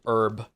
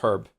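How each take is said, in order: First: The word starts with no h sound. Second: The word starts with an h sound. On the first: The speaker calls it wrong. "I really dislike it when people say herb" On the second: The speaker calls it right. "The only one that makes me mad is um is herb"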